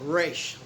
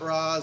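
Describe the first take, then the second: First: The name is said like 'raysh', ending in sh. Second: The name is said like 'rahs', ending in s. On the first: This is the version used in the animated series. The speaker calls it right. "I pronounce it Raish" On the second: This is the version used in the films. The speaker calls it wrong. "not Ra's, that's from the movie"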